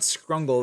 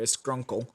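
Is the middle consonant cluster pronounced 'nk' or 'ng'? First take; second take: ng; nk. First: The middle sounds like 'ng' with a hard g. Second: The middle sounds like 'nk' with a k. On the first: The speaker calls it wrong. "It's not Scrungle" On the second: The speaker calls it right. "There's a there's a C there"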